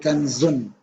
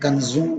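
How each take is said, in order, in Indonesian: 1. Bunyi n di akhir diucapkan dengan jelas. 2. Bunyi n di akhir kabur dan sengau. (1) "Baca jelas. tapi kanzun" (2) "Bukan kanzun"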